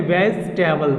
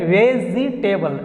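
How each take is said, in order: First: "वेजिटेबल" as vez-te-bal, dropping the middle "ee"; "वेजिटेबल" with the second e silent; corrected pronunciation. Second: "वेजिटेबल" slowly, with a clear "zee" in the middle; "वेजिटेबल" in four slow syllables; mispronunciation demo. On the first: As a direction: say "वेजिटेबल" directly in three syllables, vez-te-bal. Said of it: "इसको direct हम लोग बोलेंगे". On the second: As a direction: draw out "वेजिटेबल" as ve-zee-te-bal. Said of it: "वेजिटेबल नहीं बोलना". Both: Shown as a demonstration.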